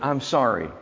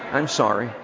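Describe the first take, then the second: First: It is said plainly, without a smile. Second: It is said warmly, with a smile. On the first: "Say it with me" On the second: "Say it with a smile"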